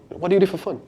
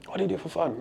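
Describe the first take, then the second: First: Said in the usual way. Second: Much softer, intimate repeat of the question. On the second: Shown as a demonstration. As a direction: ask it again, quieter and closer. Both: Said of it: "Typically I like to say".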